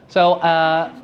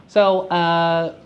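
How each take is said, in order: The two takes are said the same way.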